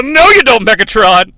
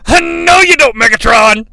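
First: Mock yell at kids. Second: Higher, louder defiant shout; Hot Rod's yell. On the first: Dad snatches the last pizza slice, mock shouting. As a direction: bark it while snatching the pizza. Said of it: "grab it and yell". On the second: Retold or imitated. Hot Rod stops Megatron's hidden blaster, shouting. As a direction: yell to stop a sneak attack. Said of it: "It comes from Hot Rod".

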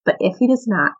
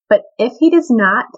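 First: Quieter repeat, "does" still stressed in "but if he does not"; softer echo. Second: Louder, weighted "But if he does not"; emphatic first reading. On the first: Repeating the friends' reply to the king, quietly savoring it. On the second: Reading the friends' defiant reply to the king, with emphasis. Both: Retold or imitated. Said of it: "I love that".

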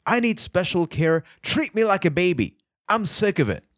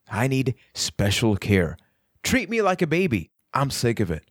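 First: Exaggerated high-pitched mock pleading; self-mocking. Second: Mock your own plea lightly, ending back near normal pitch; self-mocking. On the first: Shown as a demonstration. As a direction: ridicule your own neediness, pitched high all through. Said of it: "I'm mocking myself". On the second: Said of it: "you could tell I was mocking myself".

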